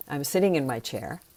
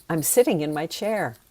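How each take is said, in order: First: Said in the usual way. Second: Genuine, mild enthusiasm; enthusiastic. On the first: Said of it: "I'm telling you". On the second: Shown as a demonstration. Teacher showing a difference in energy, enthusiastic. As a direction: say it with enthusiasm, without convincing.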